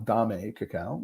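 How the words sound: The name is said with Spanish pronunciation. The speaker calls it right. "using the uh, Spanish pronunciation"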